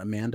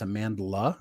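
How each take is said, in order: First: The name has no L sound before the end. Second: The name has an L sound before the end. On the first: The speaker calls it wrong. "it's not Amanda" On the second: The speaker calls it right. "it's Amandla"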